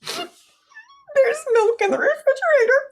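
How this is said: It is said in a scared tone.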